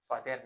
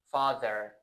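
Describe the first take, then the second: First: "father" with a hard D in place of TH. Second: "Father" with a soft TH in the middle. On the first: Teacher warning learners off a mistake, "father" said with a D. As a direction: say "father" like "fader", Persian-style. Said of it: "father نکن". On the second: Teacher showing learners the TH in "Father", soft TH sound. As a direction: say "Father" with the tongue lightly between the teeth for TH. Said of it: "یه تی اچ رو بلدی". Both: Shown as a demonstration.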